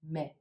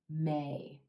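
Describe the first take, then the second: First: The vowel is clipped short, close to 'me'. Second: The vowel is long and full, as in 'gray'. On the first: The speaker calls it wrong. "make this sound too short, making the month sound like me" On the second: The speaker calls it right. "get the full pronunciation of the A as in gray"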